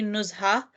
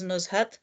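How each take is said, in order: First: The name ends on a vowel, without a t. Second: The name ends with a t sound. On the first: "in Arabic, I think it's specifically Nuzha" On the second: "it's also pronounced as Nuzhat"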